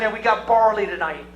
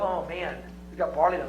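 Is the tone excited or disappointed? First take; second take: excited; disappointed. First: It is said in an excited tone. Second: It is said in a disappointed tone.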